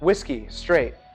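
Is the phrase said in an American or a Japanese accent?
American. It is said in an American English accent.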